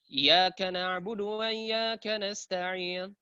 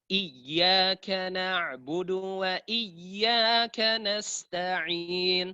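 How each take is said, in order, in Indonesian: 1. Dibaca terburu-buru dan hamzahnya dihilangkan. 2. Dibaca tidak terburu-buru dan hamzahnya dibaca. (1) "Baca ini bacaan yang salah tentunya" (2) "Beda kalau dibaca seperti ini"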